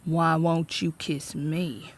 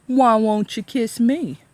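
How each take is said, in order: First: Slow, soft leering sheriff; drunk sheriff. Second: Slow, loud leering sheriff; drunk sheriff. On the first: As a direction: murmur it slowly and mockingly. Drunk sheriff taunting teacher. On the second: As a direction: leer it out loud, slowly. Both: A narrator's reading.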